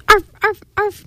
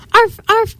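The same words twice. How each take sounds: First: High, eager spoken barks; three high happy dog yaps; happy barking. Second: High spoken dog barks; barking. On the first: Marley the dog bounds into the bakery, happy high arfs. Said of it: "Marley barked happily". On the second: Marley the dog barks as he takes off, high arfs. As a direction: yap "arf" high, like a storybook dog. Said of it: "barked Marley". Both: A narrator's reading.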